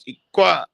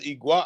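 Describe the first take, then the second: First: The middle consonant is a hard throat click. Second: The middle consonant is a soft g sound. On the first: The speaker calls it right. "It's a hard click. It's a click from the throat" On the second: The speaker calls it wrong. "somebody's like, oh no, that says Igua"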